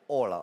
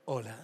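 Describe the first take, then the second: First: Very deep, curt heartthrob hello; deep, dry seducer; dry galán voice. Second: Low, soft, less dry hello; smooth, hushed heartthrob greeting; seductive galán demo. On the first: Acted. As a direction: say it low and dry, no frills. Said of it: "Lo estás haciendo muy seco". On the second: Shown as a demonstration. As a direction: soften it to make them swoon. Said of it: "tiene que ser así, mira".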